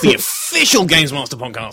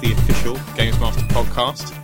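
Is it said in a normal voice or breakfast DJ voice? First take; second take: breakfast DJ; normal voice. First: It is said in a breakfast DJ voice. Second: It is said in his normal host voice.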